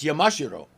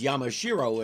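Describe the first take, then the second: First: It is said with a Japanese accent. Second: It is said with an American accent. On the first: "if you listen especially when the Amazoness says it" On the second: "in American pronunciation"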